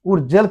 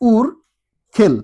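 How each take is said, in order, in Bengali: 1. মাঝের ব্যঞ্জনটি একটি নরম j ধ্বনি। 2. মাঝের ব্যঞ্জনটি একটি কড়া kh ধ্বনি। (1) "উর জেল কিন্তু হচ্ছে না" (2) "এটা হবে উ উর খেল"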